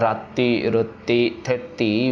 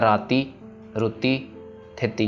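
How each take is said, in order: First: The middle consonants are held long, with pressure. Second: The middle consonants are short, without extra pressure. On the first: The speaker calls it right. "इन तीनों के ऊपर हमने pressure देना अदक के साथ" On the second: The speaker calls it wrong. "अगर हम जैसे लिखा वैसे पढ़ेंगे तो क्या हो जाएगा"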